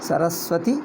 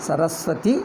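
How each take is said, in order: The two takes are said the same way.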